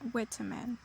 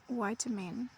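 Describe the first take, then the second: First: The word is said with a British pronunciation. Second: The word is said with an American pronunciation. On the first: "which is considered to be pronounced in um, Great Britain" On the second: "We pronounce that in America"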